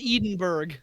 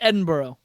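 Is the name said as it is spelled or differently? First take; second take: as spelled; differently. First: The name is said just as it is spelled. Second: The name is said differently from its spelling. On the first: "it's spelled Edinburgh" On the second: "I'm supposed to pronounce this Edinburgh"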